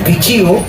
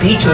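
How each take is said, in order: First: The word ends with a gliding 'chiu' sound. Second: The word ends with a plain 'chu' sound. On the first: This is the proper name of the bird. The speaker calls it right. "Es pichiu, pichiu, así es" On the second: This is how people locally say it. The speaker calls it wrong. "es un poco difícil pronunciarlo por acá, ¿no? Pichu, dicen"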